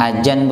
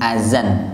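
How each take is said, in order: First: The middle consonant is pronounced as 'j'. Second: The middle consonant is pronounced as 'z'. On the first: The speaker calls it wrong. "Za dibaca ju" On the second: The speaker calls it right. "Azan, bukan ajan"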